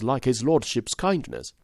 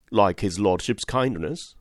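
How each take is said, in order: First: Said in the usual way. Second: Slow, puzzled rising echo; stunned question, drawn out slowly; blank amazement. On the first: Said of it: "Mister Troy repeated". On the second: Acted. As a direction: repeat it back, dumbfounded. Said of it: "in blank amazement".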